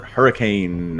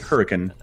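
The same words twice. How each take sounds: First: The word is said the common, usual way. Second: The word is said the local Utah way.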